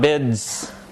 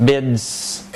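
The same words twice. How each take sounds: First: The word ends in a voiceless s sound. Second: The word ends in a voiceless s sound.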